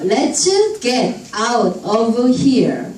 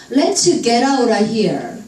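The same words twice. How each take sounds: First: "Let's get out of here" with each word separate; slow, unlinked "get out of here"; word-by-word reading. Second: "Let's get out of here" run together; slurred linking through "get out of here"; linked speech. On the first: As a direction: sound out "get", "out", "of" one at a time. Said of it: "파닉스로 또박또박 읽다가". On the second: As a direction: link "get out of" into a flowing "gerara". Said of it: "이렇게 들립니다". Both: Shown as a demonstration.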